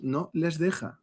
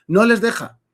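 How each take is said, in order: First: Said in the usual way. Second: "no les deja" higher and louder; emphatic repeat. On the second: Real, not acted. Commentator insisting Marruecos won't allow it, "no les deja" emphatic. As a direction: hammer home "no les deja" with raised pitch and force.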